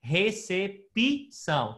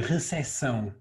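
First: Very slow "Recepção" with the p said as pi. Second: "recepção" with no p sound, European Portuguese; Portuguese "recepção" with the p dropped; without the p. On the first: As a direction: stretch out "Recepção" and voice the p as pi. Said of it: "ale wymawiamy P I". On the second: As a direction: leave the p silent in "recepção". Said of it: "my mówimy bez p". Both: Shown as a demonstration.

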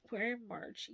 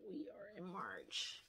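First: Said in the usual way. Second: Each word spelled out slowly: "We are in March"; disbelieving slow stress on "We are in March"; slow emphatic restatement. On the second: Real, not acted. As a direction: lay it out slow and pointed, mock self-scolding.

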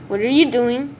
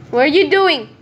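First: Said in the usual way. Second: Louder and higher, falling at the end; rising alarm at a stranger; alarmed repeat. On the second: Real, not acted. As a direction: push the question at the intruder. Player keeps approaching.

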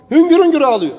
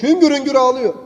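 First: "Hüngür hüngür" said higher and louder, pressed; emphatic repeat. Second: Said in the usual way. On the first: Shown as a demonstration. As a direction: lean hard on "hüngür hüngür" the second time. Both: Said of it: "repeated for emphasis".

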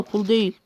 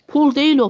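First: Said in the usual way. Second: Değil hit hard, higher and louder; değil punched up high and loud, correcting the video; emphatic correction. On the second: Real, not acted. Correcting the Korean video's misheard word, değil stressed loudly.

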